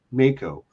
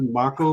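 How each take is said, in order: First: Mako said MAY-ko; shark-style pronunciation. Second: Mako said MAH-ko; Japanese pronunciation. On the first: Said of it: "pronounced Mako, like the shark". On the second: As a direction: open "ah" in the first syllable of Mako. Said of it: "that would be the Japanese pronunciation". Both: Shown as a demonstration.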